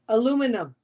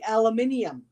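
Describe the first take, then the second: First: It is said with four syllables, American style. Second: It is said with five syllables, British style. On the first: "Like aluminum" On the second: "You say aluminium"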